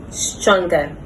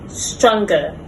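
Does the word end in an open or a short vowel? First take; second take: short; short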